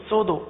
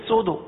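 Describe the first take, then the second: Both takes have the same delivery.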